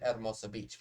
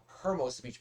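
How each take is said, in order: First: "Hermosa Beach" with a schnazzy twang; twangy Hermosa. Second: Said in the usual way. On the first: Shown as a demonstration. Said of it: "a nice schnazzy twang to it". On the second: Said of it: "I like to pronounce it".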